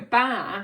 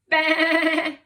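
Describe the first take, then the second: First: It is a short, plain syllable. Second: It is a drawn-out, bleating sound. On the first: The speaker calls it wrong. "we won't just go ba" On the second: The speaker calls it right. "we'll go ba"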